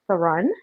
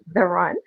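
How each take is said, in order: First: It is said as two separate words. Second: It is said run together as one word. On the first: The speaker calls it wrong. "I keep trying to pronounce it" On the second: The speaker calls it right. "it's actually The Run put together as one word"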